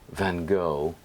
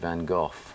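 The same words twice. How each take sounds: First: It is said the American way. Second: It is said the English way.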